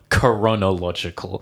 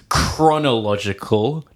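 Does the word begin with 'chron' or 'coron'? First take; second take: coron; chron. First: The word begins with 'coron', with an extra vowel. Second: The word begins with 'chron', with no extra vowel. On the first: The speaker calls it wrong. "not coronological" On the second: The speaker calls it right. "It's chronological"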